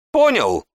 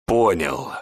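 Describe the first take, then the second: First: High, loud demanding bark. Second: Low, squeezed answer in held-back fury; seething reply. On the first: Mage demands the apprentice understood. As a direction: bark the question down at him. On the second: Beaten apprentice answers the mage, seething. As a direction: force the word out through rage. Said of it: "выдавил клокочущим от ярости голосом". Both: Acted.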